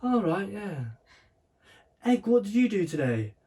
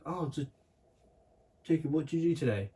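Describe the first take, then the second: First: Much higher, slightly louder mock mum; high-pitched mock mum quizzing Egg; imitating mum. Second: Lightly voiced mum asking, higher pitch; mock mum quizzing her son; a hint of a sing-song mum asking about school; imitating mum. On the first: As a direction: ham up the mum asking about school. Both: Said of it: "[name] does the best impression of me".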